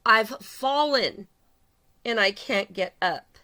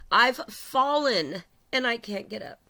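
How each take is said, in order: First: "I've fallen" stretched very slowly and louder, then "and I can't get up" slow and heavy; drawn-out emphasis. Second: Slow, mock-helpless plea from the old TV ad; quoting the commercial. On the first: Shown as a demonstration. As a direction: hammer each word home. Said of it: "You have fallen". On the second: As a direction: play the fallen lady calling for help, slowly. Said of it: "that was a commercial about a lady that fell".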